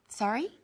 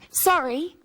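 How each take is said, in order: First: The pitch rises at the end of the word. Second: The pitch falls at the end of the word. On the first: It asks the other person to repeat. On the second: It is an apology.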